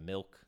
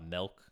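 First: Said in the usual way. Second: Milk said as melk; milk with the vowel of bell; regional pronunciation. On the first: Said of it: "instead of milk". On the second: Shown as a demonstration. Host showing a regional word, milk said as melk. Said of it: "weird intricacies in words".

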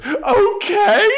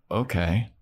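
First: Okay squeaked very high and loud, half crying; a wounded squeal of okay before storming out; shrill hurt okay. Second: Said in the usual way. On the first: Retold or imitated. Anya answers Xander with a high, near-tearful okay.

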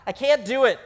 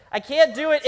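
First: Said in the usual way. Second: Higher, louder, ending on a rise; exasperated repeat, pitched up; emphatic refusal. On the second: Shown as a demonstration. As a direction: insist you truly can't.

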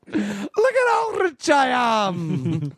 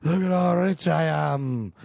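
First: High, very drawn-out mock-Scottish wail; exaggerated feverish cry, bad Scottish brogue; bad Scottish accent. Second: Slow, slurred Scottish impression like a tired leprechaun; bad Scottish accent. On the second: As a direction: drag it out in a dubious Scottish accent. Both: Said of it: "sounded more like a drunk".

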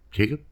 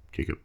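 First: "Jacob?" asked with a rising tune, unsure; checking the name. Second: Said in the usual way. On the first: Shown as a demonstration. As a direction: ask "Jacob?" as a careful question. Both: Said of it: "making sure I got the name right".

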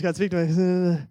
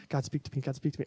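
First: Slow, higher, loud mock prayer; hammed-up childhood plea. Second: Quick, repeated mock plea in near-usual voice; imitated childhood prayer. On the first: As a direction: drag out a comically strained plea to God. Replaying the kid's second Bible attempt. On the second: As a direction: lightly act a kid praying for a sign. Acting out childhood random Bible opening.

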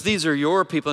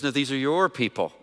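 First: "These are your people" with "your" stressed, handing them off; God hands the people over to Moses, "your" stressed; stress on your, pushing them away. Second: "No, these are your people" with "your" leaned on; stress on your, handing back. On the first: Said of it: "God says". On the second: Moses hands the people back to God, "your" stressed. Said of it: "And he goes". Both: Retold or imitated.

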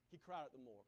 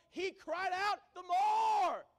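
First: Much lower and softer echo of the shout; the hushed repeat after a shout; quiet. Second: Big drawn-out preacher shout, much higher. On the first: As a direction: drop it down low and soft. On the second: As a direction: shout it out slowly at full force. Preacher shouting Bartimaeus' cry. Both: Acted.

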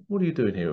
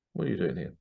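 First: Said in the usual way. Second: Put-on a quieter, lower posh British accent. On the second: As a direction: ask it like a plummy British official. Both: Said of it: "With a very posh kind of British accent".

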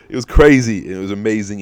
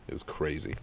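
First: Loud, higher burst of excitement; excited. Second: Softer, lower musing; quiet wrap-up. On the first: Telling listeners about the free cash, excited. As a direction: blurt it out, thrilled. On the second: Closing the story for listeners, quietly. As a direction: let it trail off, satisfied. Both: Real, not acted.

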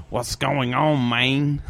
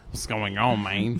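First: Put-on failed Jamaican accent that sounds Mexican; bad Jamaican accent. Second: Lightly voiced fake Jamaican accent, sounding Mexican; bad Jamaican accent. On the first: Guest mimics friend's younger brother's would-be Jamaican accent, sounding Mexican. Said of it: "You wanna hear my Jamaican accent". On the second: Guest reprises the brother's attempt, mild bad Jamaican accent. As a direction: toss off a poor Jamaican accent at normal volume.

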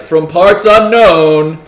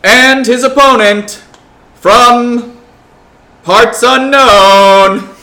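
First: Slow booming ring announcer call. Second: Loud, slow boxing announcer call; ring announcer. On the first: Retold or imitated. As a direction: draw it out like a fight announcer. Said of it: "do you just wanna be like". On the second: Acted. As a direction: stretch every word for the crowd. Announcing fighters in the arena.

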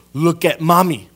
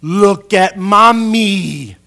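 First: Mom's loud, raised-pitch call; imitated mother's firm command; mom demanding attention. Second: Very loud, drawn-out, high-pitched mom; imitated mother's exaggerated, rising-volume demand; mom insisting loudly. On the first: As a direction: call a distracted boy to look at you. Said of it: "My mom used to do this". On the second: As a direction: stretch it out slowly to force a child's attention. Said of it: "She would go".

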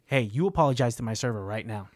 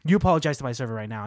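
First: Low, measured order to apologize; low-voiced retold warning; controlled stern demand. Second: Quick, insistent retold order; firm confrontation, rattled off with force; forceful stern demand. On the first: Acted confrontation, first take of demand. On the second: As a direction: press the demand hard and fast. Acted demand repeated with more force.

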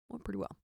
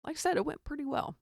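First: Softer, muttered repeat; a quiet aside to yourself; quiet echo. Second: Said in the usual way. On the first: Real, not acted. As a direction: trail off under your breath.

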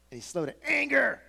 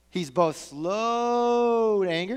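First: Higher, falling hard on "anger"; stress on anger. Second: "slow" stretched long with a rising tune; very slow, drawn out. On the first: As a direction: land on "anger". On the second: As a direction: linger on "slow to anger". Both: Shown as a demonstration.

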